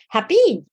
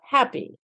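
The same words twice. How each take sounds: First: The stress falls on the second syllable. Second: The stress falls on the first syllable. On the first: The speaker calls it wrong. "lexical stress errors like happy" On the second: The speaker calls it right. "instead of happy"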